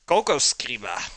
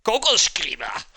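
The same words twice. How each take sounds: First: "Coco Scriba" with a light mock German sound; a hint of German on "Coco Scriba". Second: "Coco Scriba" loud, high and harsh mock German. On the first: Streamer quoting a fake German word for pen, light. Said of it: "the, uh, German word for pen". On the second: Streamer mocking German words for pen, loud. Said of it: "And then German, it's like". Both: Shown as a demonstration.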